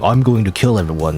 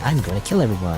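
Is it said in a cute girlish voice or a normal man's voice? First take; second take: normal man's; cute girlish. First: It is said in a normal man's voice. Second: It is said in a cute anime-girl voice.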